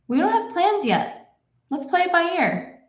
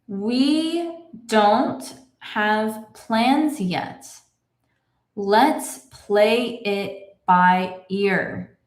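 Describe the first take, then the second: First: The sentence is read at natural speed. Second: The sentence is read very slowly. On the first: "I will read it in my normal speed" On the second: "Let's read this together slowly"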